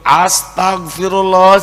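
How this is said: It sounds angry and scolding.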